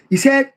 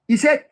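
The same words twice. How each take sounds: The two takes are said the same way.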